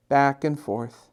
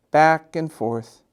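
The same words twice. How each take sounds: The two takes are said the same way.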